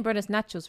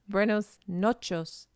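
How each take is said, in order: First: "nachos" with an "ah", like the snack; mispronounced Spanish. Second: Slow "nochos", with an "o" in the first syllable; attempted correction. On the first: Showing the mistake made earlier, "nachos" for noches. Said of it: "I was saying buenos nachos wrong". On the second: Correcting the earlier mistake slowly, "nochos" with an "o". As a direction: round it to "nochos", drawn out. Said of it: "It's buenos". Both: Shown as a demonstration.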